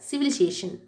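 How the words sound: It is said in an American accent. "Second சொல்கிறது Americans"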